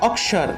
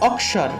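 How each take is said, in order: Both takes have the same delivery.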